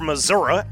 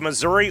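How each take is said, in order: First: It is said in a local regional accent. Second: It is said in a general accent.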